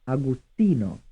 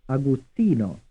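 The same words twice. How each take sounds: The two takes are said the same way.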